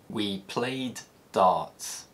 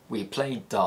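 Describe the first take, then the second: First: Both d sounds are said separately. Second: The two d sounds merge into one.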